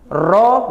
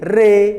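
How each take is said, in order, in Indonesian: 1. Bunyi r diikuti vokal 'o' terbuka. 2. Bunyi r diikuti vokal 'e'. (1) "Ro menjadi re" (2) "Ro menjadi re"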